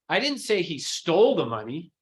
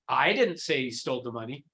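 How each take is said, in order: First: The stress falls on the word stole. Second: The stress falls on the word I. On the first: He might have borrowed it. "It's stole" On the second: Someone else said it. "it wasn't me"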